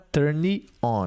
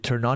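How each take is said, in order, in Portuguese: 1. Um 'i' extra vem depois do n de turn. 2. O n de turn liga direto com on. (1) "não é turn on. Não tem um i aqui" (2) "fica turn on"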